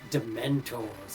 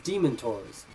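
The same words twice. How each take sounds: First: The first syllable sounds like 'demented'. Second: The first syllable sounds like 'demon'. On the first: The speaker calls it right. "Like, oh, they're demented" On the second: The speaker calls it wrong. "like demon"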